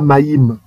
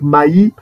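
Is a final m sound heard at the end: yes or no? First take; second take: yes; no. First: The word ends with a final m sound. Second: The word ends without a final m sound. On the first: The speaker calls it wrong. "on ne dit pas maïm" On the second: The speaker calls it right. "Le même ne se prononce pas parce que c'est la consonne finale"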